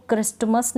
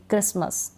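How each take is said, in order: First: "क्रिस्टमस" with the T sounded; mispronounced "क्रिस्टमस", T not silent; wrong pronunciation. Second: "क्रिसमस" with a silent T; correct pronunciation. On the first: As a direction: say the T before M in "क्रिस्टमस". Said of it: "क्रिस्टमस नहीं पढ़ूंगी". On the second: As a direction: drop the T in "क्रिसमस". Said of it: "टी इन सारे spellings में". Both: Shown as a demonstration.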